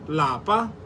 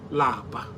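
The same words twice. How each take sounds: First: The word is said with a high tone. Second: The word is said with a low tone. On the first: It means home. "In higher tone, lapa means home" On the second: It means to be tired. "Lower tone, which lapa. Lapa means to be tired"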